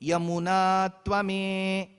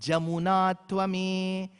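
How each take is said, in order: First: The name begins with a Y sound, southern style. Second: The name begins with a J sound, northern style.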